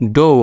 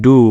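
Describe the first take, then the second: First: The vowel sounds like 'oh'. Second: The vowel sounds like 'oo'. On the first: The speaker calls it wrong. "এটা আবার ডো হবে না" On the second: The speaker calls it right. "এটা হবে ডু"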